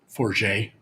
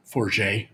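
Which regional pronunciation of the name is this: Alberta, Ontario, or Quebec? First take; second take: Quebec; Quebec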